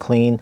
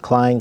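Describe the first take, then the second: First: The vowel sounds like 'ee', rhyming with lean. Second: The vowel sounds like 'eye', rhyming with line. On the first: The speaker calls it wrong. "I've been pronouncing it Clean the whole time" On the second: The speaker calls it right. "someone says it was Klein, so I guess it's Klein"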